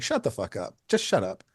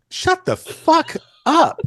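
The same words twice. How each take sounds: First: Muted dismissal. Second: High, loud, drawn-out mock yell; hammed-up indignant outburst, each word stretched; mock outrage. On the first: Retold or imitated. Photographer brushing off being called a legend, quietly dismissive. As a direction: wave the praise away under the voice. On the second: Photographer to admiring musician who called him a legend, mock outraged.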